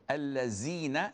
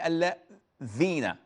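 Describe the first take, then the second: First: The middle consonant is a buzzing 'z' sound. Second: The middle consonant is a 'th' sound, tongue at teeth. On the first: The speaker calls it wrong. "instead of saying" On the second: The speaker calls it right. "say allazina"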